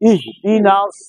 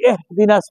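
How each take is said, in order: First: The first vowel sounds like 'ih'. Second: The first vowel sounds like 'eh'. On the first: The speaker calls it right. "এহ না হবে ইহ" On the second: The speaker calls it wrong. "অনেকে এহ দিনাস পরে"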